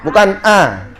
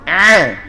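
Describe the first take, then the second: First: The vowel is a plain, open a sound. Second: The vowel is pressed and squeezed in the throat. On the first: The speaker calls it wrong. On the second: The speaker calls it right. "tekan sama kayak tekan tekan tenggorokan"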